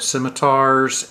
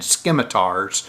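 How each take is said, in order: First: The c is silent, giving a soft s. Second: The c is sounded as a hard k. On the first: The speaker calls it right. "scimitar is the actual pronunciation" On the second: The speaker calls it wrong. "I've been pronouncing the C with a hard C"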